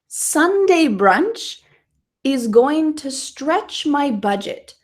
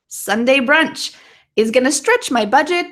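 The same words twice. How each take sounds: First: The sentence is spoken slowly. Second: The sentence is spoken quickly. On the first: "I'm going to say it one more time slowly" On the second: "Now I'm going to say it quickly a couple times"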